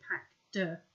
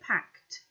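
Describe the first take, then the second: First: The word ends with a voiced D sound. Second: The word ends with a voiceless T sound. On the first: The speaker calls it wrong. "We don't make a D sound. We don't say packed" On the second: The speaker calls it right. "We say packed"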